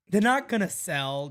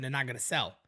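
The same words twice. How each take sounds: First: Not hit loud and high; They're not gonna sell with not punched louder; stress on NOT. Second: Said in the usual way. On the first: Acted. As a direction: slam the word not. Repeats the claim, emphatic.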